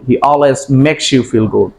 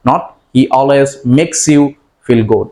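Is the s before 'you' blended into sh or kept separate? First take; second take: blended; separate. First: The s and y merge into an sh sound. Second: The s and y are pronounced as separate sounds. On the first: The speaker calls it right. "সাউন্ডটা শ সাউন্ডের মতো উচ্চারিত হয়ে যাচ্ছে" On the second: The speaker calls it wrong.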